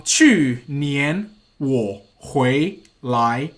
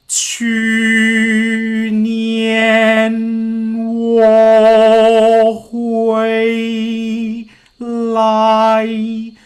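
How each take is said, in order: First: 去年我回来 slow, each tone sung out. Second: 去年我回来 held on a single level note; on one pitch. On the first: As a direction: glide through every tone of 去年我回来. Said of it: "If I put the tone in". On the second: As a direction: chant 去年 我回 来 flat on one pitch. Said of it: "pick a tone". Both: Shown as a demonstration.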